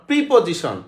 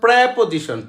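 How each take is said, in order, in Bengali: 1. প্রথম স্বরধ্বনিটি 'ee'-এর মতো শোনায়। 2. প্রথম স্বরধ্বনিটি 'eh'-এর মতো শোনায়। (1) "নট প্রিপোজিশন" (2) "উচ্চারণ হচ্ছে প্রেপোজিশন, প্রেপ"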